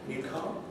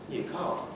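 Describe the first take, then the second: First: The pitch rises at the end. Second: The pitch falls at the end. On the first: It asks whether the listener has a new car. "That rise indicates that it's, it's a question" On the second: It comments on the listener having a new car. "You're just commenting"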